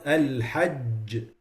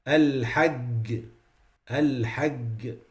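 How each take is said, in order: First: Al-hajj with a firm j; slow al-hajj, hard j; correct jim. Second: Al-hajj ending in a g; al-hajj said as al-hagg; jim as hard G. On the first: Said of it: "like the letter G". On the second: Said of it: "It becomes". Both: Shown as a demonstration.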